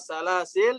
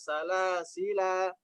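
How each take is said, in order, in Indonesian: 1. Kata ini berakhir pada konsonan terakhir. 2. Kata ini berakhir dengan vokal panjang. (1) "dihilangkan dulu alifnya" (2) "yang kedua salasila"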